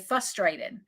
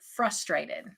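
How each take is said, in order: First: The R after the F is dropped. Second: The R after the F is pronounced. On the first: The speaker calls it wrong. "But I always say frustrated" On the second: The speaker calls it right. "but there's an R in it"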